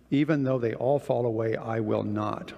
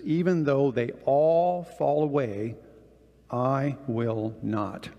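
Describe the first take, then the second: First: Said in the usual way. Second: Slow, deliberate, every word weighted; forceful vow. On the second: Retold or imitated. Peter vowing loyalty to Jesus, slow and firmly stressed. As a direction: lean into the promise, measured and firm. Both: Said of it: "very forcefully says to Jesus".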